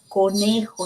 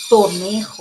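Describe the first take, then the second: First: The word begins with a k sound. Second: The word begins with a t sound. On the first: The speaker calls it right. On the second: The speaker calls it wrong.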